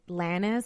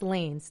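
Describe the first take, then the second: First: The name is said with a Spanish pronunciation. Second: The name is said like the English word lanes. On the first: The speaker calls it wrong. "that's how you pronounce it in Spanish" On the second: The speaker calls it right. "but it's Lanes"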